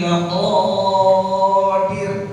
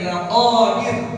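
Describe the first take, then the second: First: The vowel after the q is drawn out long. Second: The vowel after the q is kept short. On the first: The speaker calls it wrong. "Jangan dibaca nanti innahu ala raj'ihi laqadir. Panjangan" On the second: The speaker calls it right. "Mestinya apa?"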